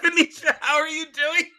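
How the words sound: It is said while laughing.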